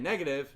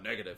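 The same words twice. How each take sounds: First: It is said in a plain, normal voice. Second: It is said in a garbled, processed trooper voice. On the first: "instead of saying negative" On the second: "it comes out negative"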